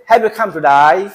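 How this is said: Today ends with an 'eye' sound.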